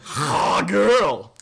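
It is said in a put-on French accent.

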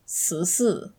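The first syllable starts with an s sound. This is the southern pronunciation. "when you don't pronounce sh and you say si, it turns into sisi"

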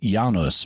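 The name is said the Polish way.

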